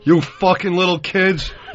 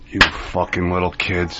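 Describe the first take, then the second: First: It is said loudly and booming. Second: It is said quietly in a lowered voice.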